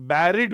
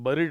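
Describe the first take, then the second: First: The first syllable sounds like 'berry'. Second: The first syllable sounds like 'bur'. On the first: The speaker calls it right. "इसको pronounce करते हैं बैरी" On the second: The speaker calls it wrong. "ये बरिड नहीं है"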